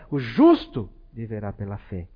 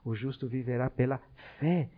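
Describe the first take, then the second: First: The word justo is stressed. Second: The word fé is stressed. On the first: The point is being made righteous. "Um olha mais para o lado dessa justiça" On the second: The point is faith rather than law. "o outro da fé"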